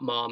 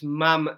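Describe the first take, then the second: First: The vowel does not sound like ham's. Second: The vowel sounds like the one in ham. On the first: The speaker calls it wrong. "not Mom as in right" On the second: The speaker calls it right. "It's Mam as in ham"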